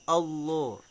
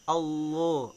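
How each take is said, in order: No difference in how they are said.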